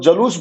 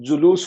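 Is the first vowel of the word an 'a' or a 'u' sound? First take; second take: a; u. First: The first syllable has an 'a' vowel. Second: The first syllable has a 'u' vowel. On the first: The speaker calls it wrong. "जिसको जलूस बोल देते हैं" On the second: The speaker calls it right. "जुलूस होता है"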